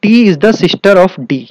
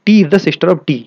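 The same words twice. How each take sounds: First: Slow and a little louder, clue read word by word; teacher slowly reading the clue aloud; slow emphatic reading. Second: Said in the usual way. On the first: Shown as a demonstration. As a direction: dictate the clue slowly to the students. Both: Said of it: "आगे देखिए".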